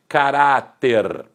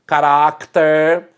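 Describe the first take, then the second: First: "caráter" said slowly as ca-RA-ter, no k sound; pronounced without C. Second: "caráter" said slowly with a k sound before the t; pronounced with C. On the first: Teacher showing the other spelling, "caráter" without any k. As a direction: stretch "caráter", open RA straight into ter. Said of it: "sem a letra C". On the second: Teacher showing the old spelling, "caráter" with sounded k. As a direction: say "caráter" as ca-RAC-ter, drawn out. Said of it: "com a letra C". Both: Shown as a demonstration.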